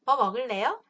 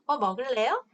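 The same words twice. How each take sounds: Both takes have the same delivery.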